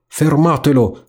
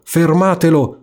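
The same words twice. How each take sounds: First: First call pitched up high, mock yell; a hint of an angry rat crying out. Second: The rat's cry builds to its peak; yelling rat. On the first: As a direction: rat starting to call after the boat. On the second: Acted. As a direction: rat yelling at the straws to stop the boat. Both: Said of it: "come gridava".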